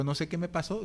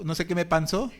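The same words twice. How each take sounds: First: Said in the usual way. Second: Chuckling repeat at himself; laughing at his own decline. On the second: Real, not acted. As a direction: say it again through a laugh.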